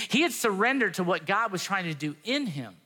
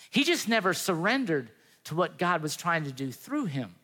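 First: "in" picked out with a pitch peak; stress on IN. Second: "through" picked out with a pitch peak; stress on THROUGH. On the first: Preacher contrasting what God does in Jonah, stress on "in". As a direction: lift the word "in" near the end. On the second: Preacher contrasting what God does through Jonah, stress on "through". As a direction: lift the word "through" near the end. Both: Real, not acted.

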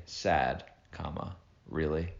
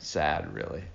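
First: Really rising like a question; questioning lilt on "really". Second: "Sad, really." read flat and final as a statement; a flat statement, not a question. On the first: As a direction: end "sad, comma, really." on a rising question tune. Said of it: "I said that like a question". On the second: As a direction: state "Sad, really." firmly, no rising tune. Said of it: "It was a statement". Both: Shown as a demonstration.

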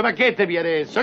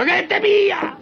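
First: Said in the usual way. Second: Much higher, incredulous cry on pia; exasperated repeat. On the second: Acted. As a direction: throw the repeat up high in disbelief. Father repeats, more exasperated. (ripetuto molto più acuto, incredulo)

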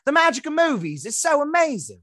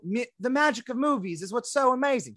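First: Higher, breathy gushing Australian voice; mock Australian accent. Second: Higher, airy Australian starlet voice; lightly mock an Australian actress gushing; mock Australian accent. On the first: Host imitates Margot Robbie in a mock Australian accent. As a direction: gush it like an Aussie starlet at an awards show. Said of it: "this is an accurate, uh, imitation". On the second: Podcast host mocks Margot Robbie's Australian accent. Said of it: "she is Australian, so this is an accurate imitation".

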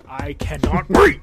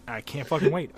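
First: I cannot wait, drawn out slow and much louder; overexcited. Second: Said in the usual way. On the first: Shown as a demonstration. Telling his co-host about Japan, slow, loud and gleeful. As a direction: stretch it out and belt it with glee. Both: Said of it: "I'm super excited".

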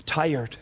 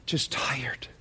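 First: Said in the usual way. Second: Soft whisper, much quieter and lower; a weary hush. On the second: Real, not acted. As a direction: breathe the word tired out in a whisper. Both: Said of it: "many are tired".

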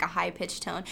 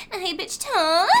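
First: Said in the usual way. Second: Much higher and louder, rising on TONE; mock porn star squeal, TONE lifted high; high-pitched ending. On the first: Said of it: "it's the ending the words in". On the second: Shown as a demonstration. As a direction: imitate the starlet with TONE squeaked upward.

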